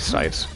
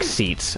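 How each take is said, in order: First: The vowel sounds like 'eye', as in sites. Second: The vowel sounds like 'ee', as in seats. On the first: The speaker calls it right. "it's probably Sites" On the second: The speaker calls it wrong. "makes me think that it's spelt like... Like seats"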